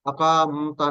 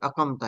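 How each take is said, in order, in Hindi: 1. q के बाद का स्वर लंबा है। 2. q के बाद का स्वर छोटा है। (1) "अकामता नहीं है" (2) "बल्कि अकमता है। ... अलिफ इसमें गायब हो जाता है"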